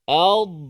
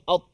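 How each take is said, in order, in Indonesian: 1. Konsonan terakhir dilepaskan dengan sedikit bunyi. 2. Konsonan terakhir dipotong secara tiba-tiba. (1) "Dia adalah ad ad ad. Ha, sebenarnya ada suara yang lepaskan sedikit" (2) "Dia bukan bukan at"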